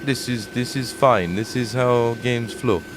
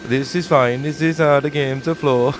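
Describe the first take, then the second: First: Slow, lightly put-on Eastern European accent; drawn-out mock Eastern European dev voice; a faint Eastern European accent, slowed down. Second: Slightly higher, louder mock Eastern European voice; lightly put-on Eastern European accent for the dev; a hint of Eastern European accent, mocking. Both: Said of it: "I don't know why I've made him Eastern European".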